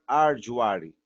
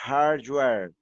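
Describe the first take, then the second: First: It has Portuguese sounds with extra vowels. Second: It has English sounds with a strong R. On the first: The speaker calls it wrong. "eu não vou falar isso" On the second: The speaker calls it right. "eu vou fazer a pronúncia"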